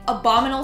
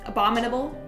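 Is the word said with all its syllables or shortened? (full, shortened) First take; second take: shortened; full. First: The word is said with some syllables dropped. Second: The word is said with all its syllables. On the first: The speaker calls it wrong. "Think you forgot a few syllables" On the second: The speaker calls it right. "Yeah, that's it"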